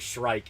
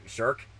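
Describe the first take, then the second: First: The name rhymes with 'strike'. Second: The name rhymes with 'work'. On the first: The pronunciation this speaker uses. "I say Shrike" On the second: The pronunciation other people expect. "instead of like Shirk"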